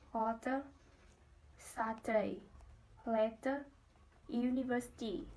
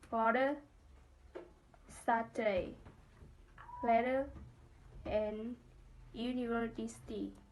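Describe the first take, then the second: First: The t sounds are said as clear t sounds. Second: The t sounds are said as quick d sounds. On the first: "British English" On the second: "American English"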